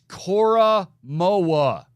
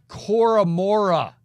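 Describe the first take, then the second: First: The last name has no r sound in it. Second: The last name has an r, rhyming with Bora. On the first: The speaker calls it right. "It's Cora Moa" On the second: The speaker calls it wrong. "It's not Cora Mora from Bora Bora"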